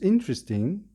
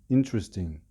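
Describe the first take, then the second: First: It is said with eager, lively interest. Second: It is said with flat, reluctant interest. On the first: The speaker liked the movie and wants to say more. "it means that you are very keen on this movie" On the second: The speaker did not like the movie and wants to change the subject. "your interests in the movie are not very good"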